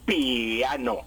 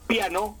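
First: The two vowels are split into separate syllables. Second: The two vowels are joined in one syllable. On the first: The speaker calls it wrong. "no puedo decir piano" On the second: The speaker calls it right. "la pronuncio el diptongo en un solo golpe de voz"

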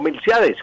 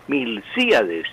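First: The stress falls on the a, forming one syllable. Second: The stress falls on the i, splitting i-a. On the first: The speaker calls it wrong. "y no Milciades, como decimos en el habla corriente y popular" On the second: The speaker calls it right. "con acento en la I de sí"

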